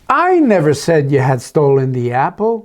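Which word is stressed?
I. The word "I" carries the stress. Someone else made the accusation. "Oh, maybe it's Esther that did"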